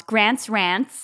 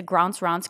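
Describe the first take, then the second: First: "Grant's Rants" in a tried-on Southern American twang, rising; Southern girl saying "Grant's Rants" with front a; attempted Southern accent. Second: "Grant's Rants" with long open ah vowels; fancy broad A. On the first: Host tries guest's version of his title, imitated Southern American accent. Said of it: "sound like a Southern girl". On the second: Shown as a demonstration. Host tells listeners to tune in, broad-A "Grant's Rants". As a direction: say "Grant's Rants" as "Grahnts Rahnts". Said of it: "I like the fancy version".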